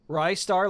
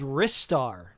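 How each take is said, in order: First: The first syllable rhymes with 'rise'. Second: The first syllable rhymes with 'wrist'. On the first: The name comes from 'Rising Star'. "Some people say it's Rystar. Rystar, like Rising Star" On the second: The name comes from the character using its wrists. "But I think it's called Ristar... uses their wrists"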